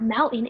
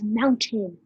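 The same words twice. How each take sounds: First: The middle T sound is left out. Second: The middle T sound is clearly pronounced. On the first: The speaker calls it wrong. "no, it's not mountain" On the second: The speaker calls it right. "it's mountain"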